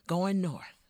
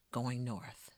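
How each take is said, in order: First: Said in the usual way. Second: Fading refrain. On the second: Acted. Repeated refrain.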